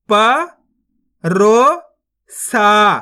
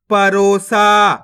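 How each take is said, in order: First: परोसा slowly split into held syllables. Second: Said in the usual way. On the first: Shown as a demonstration. Teacher showing learners how to read परोसा, syllable by syllable. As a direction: sound out परोसा with gaps. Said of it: "एक बार फिर से देखिए". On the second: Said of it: "तो मिलके बन जाएगा".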